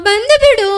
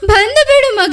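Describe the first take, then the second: First: Said in the usual way. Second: Pleading to her son through sobs; mother begging her son to come home, crying; crying plea. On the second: Acted. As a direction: beg him to come as the tears break through. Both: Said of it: "ಅಳ್ಬೇಡ, ಸಮಾಧಾನ ಮಾಡ್ಕೊ".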